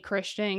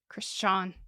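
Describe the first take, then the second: First: The name is said with an American pronunciation. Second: The name is said with a German pronunciation. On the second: "He pronounces it like"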